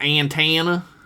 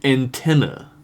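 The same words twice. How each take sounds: First: It is said with a strong Southern accent. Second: It is said without a Southern accent. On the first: "when I say it without trying really hard" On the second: "I'm gonna try my hardest not to say it with like the full-on Southern inflection"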